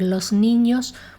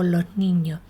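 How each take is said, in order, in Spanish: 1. La s de los se pronuncia completa. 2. La s de los se vuelve una h aspirada. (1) "En lugar de articular los niños" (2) "una pronunciación del tipo los niños"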